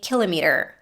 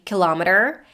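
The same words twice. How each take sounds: First: It is said the British way. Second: It is said the American way. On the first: "Brits will say kilometer" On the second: "Americans would usually say kilometer"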